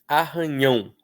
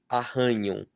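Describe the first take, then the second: First: The stress is on the last syllable. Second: The stress is on the second syllable. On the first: "em arranhão, a sílaba tônica é o ão" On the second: "a sílaba tônica seria o rã"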